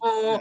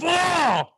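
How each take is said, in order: First: It is said calmly, without aggression. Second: It is shouted aggressively.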